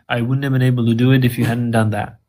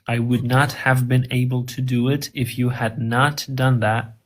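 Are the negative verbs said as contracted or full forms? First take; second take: contracted; full. First: The negatives are shortened and joined to the verbs. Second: Each negative is said as a separate full word. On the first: This is how native speakers actually say it. "But they say" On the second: This is how the sentence is written. "that's what they write"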